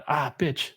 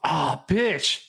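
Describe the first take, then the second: First: Stubbed toe. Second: Fed-up groan ah, bitch; missed train. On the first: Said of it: "if I, like, stub my toe". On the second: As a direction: sigh out ah, bitch in frustration. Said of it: "you miss your train". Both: Shown as a demonstration.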